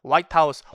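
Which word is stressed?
white. The stress falls on the first word. It is the president's residence. "백악관이고"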